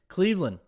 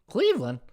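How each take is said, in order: First: It is said in his ordinary voice. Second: It is said in an exaggerated put-on voice.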